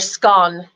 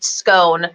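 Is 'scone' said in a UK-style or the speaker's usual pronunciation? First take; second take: UK-style; usual. First: It uses a pronunciation heard in parts of Britain. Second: It uses the speaker's own usual pronunciation.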